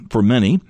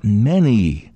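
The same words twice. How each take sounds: First: Many lifted and leaned on; stress on many. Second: "many" set apart, held and falling; stress on many. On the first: Preacher underlining the word "many" for the congregation. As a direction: press the word "many" with a small rise. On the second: Preacher repeating "many" to stress the warning. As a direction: isolate "many" after a pause and lean on it. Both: Shown as a demonstration. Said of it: "and I emphasize that".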